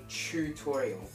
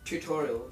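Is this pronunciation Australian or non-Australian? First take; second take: Australian; non-Australian. First: It is said in an Australian way. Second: It is said in a non-Australian way. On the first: "they say tutorial" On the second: "In Australia, no one says tutorial"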